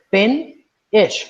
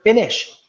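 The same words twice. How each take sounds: First: Fin-ish broken into two clear beats, higher and louder; split into syllables. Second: Said in the usual way. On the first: Shown as a demonstration. Teacher splits the word for students, syllable by syllable. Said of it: "Fin-ish, right?".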